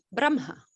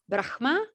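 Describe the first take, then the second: First: "Brahma" said BRAM-ha, m before the h. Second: "Brahma" said BRAKH-ma, breathy h before the m. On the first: Teacher showing the other opinion, "Brahma" as BRAM-ha. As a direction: say "Brahma" with h moved after the m, falling. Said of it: "there will be people that says". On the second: Teacher showing students one pronunciation, "Brahma" as BRAH-h-ma. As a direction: say "Brahma" as written, h sound then m, rising. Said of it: "some people that say the pronunciation is". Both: Shown as a demonstration.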